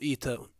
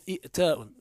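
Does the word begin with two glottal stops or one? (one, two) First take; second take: one; two. First: A long vowel replaces the second glottal stop. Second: A second glottal stop follows the first vowel. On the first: "فتقول إيتاء" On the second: "أصله إئتاء"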